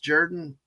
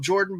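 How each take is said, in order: First: The first vowel sounds like 'ur'. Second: The first vowel sounds like 'or'. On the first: This is how locals say it. "an O can be pronounced as a U" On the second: This follows the spelling. "I know it's spelled Jordan"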